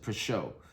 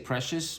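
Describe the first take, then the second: First: The word ends in a French 'syuh' sound. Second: The word ends in an English 'shus' sound. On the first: "I think that is how you pronounce it" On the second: "some people just say precious"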